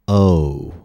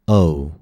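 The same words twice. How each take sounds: First: The vowel is drawn out slowly. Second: The vowel is said at normal speed. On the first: "Now let's put those two parts together slowly" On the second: "Now let's try it at a normal rate of speech"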